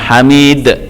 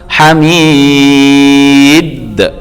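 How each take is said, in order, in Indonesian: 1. Huruf d terakhir hanya memantul lemah. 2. Huruf d terakhir memantul kuat dan penuh. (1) "jangan tanggung hamid, salah" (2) "maka itu harus lebih mantul"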